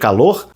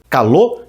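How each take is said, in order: First: The final R is clearly sounded. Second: The final R is dropped. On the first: "em vez de" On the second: "apagar o R no final"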